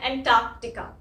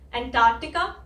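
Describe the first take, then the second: First: The middle k sound is clearly pronounced. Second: The middle k sound is left silent. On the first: "एक में मैं बोल रही हूँ" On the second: "एक में मैं वो सी नहीं बोल रही हूँ, ये पहले वाला"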